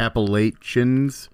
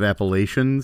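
First: The middle consonant sounds like ch in church. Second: The middle consonant sounds like sh in shoe. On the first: "Hard with the ch instead of a sh" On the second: "Instead of"

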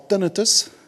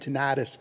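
First: It is said in a South African accent. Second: It is said in a Texan accent.

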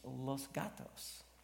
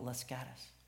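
First: The name has the Spanish-style pronunciation. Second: The name has the local English-style pronunciation. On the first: The speaker is not from the area. The speaker calls it right. "if you pronounce it correctly, in particular, it's Spanish" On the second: The speaker lives in the area. The speaker calls it wrong. "if you live there, you call that little bedroom community Las Gatas"

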